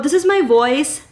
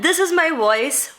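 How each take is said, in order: First: The voice sounds duller with more background noise. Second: The voice sounds crisp with less background noise. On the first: "without the mic" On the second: "with the mic. far more crisp"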